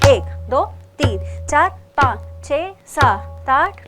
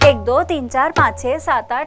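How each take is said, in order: First: The numbers are counted at twice the base speed. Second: The numbers are counted at four times base speed. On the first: Two counts are said per beat. "दोगुन" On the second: Four counts are said per beat. "चौगुन"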